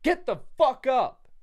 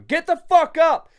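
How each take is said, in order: First: It is yelled less loudly than later. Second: It is yelled louder and more aggressively.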